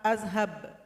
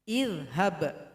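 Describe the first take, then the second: First: The word begins with an 'a' vowel. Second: The word begins with an 'i' vowel. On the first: The speaker calls it wrong. "Nggak boleh dibaca a" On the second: The speaker calls it right. "maka hamzah wasal bunyinya i"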